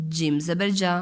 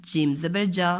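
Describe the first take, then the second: No difference in how they are said.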